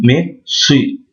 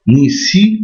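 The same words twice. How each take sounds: First: "si" with a heavy emphatic s and an open vowel. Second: Said in the usual way. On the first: Shown as a demonstration. Teacher contrasting the sounds: emphatic "si". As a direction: thicken the "si", as the Arabic sad. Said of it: "on grossit la lettre".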